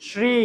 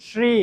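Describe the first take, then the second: No difference in how they are said.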